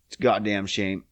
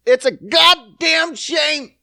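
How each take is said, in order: First: Said in the usual way. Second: High, slow, drawn-out shout; hammed-up slow yell; mock outraged shout. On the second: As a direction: bellow it like a wronged preacher. Repeats line as outburst.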